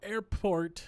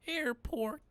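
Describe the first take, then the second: First: Higher, louder test voice; trying out a voice. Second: Much higher questioning character voice; trying out a voice. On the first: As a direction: try a passenger voice on. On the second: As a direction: test a squeaky passenger voice. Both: Shown as a demonstration. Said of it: "I don't know what his voice is gonna be".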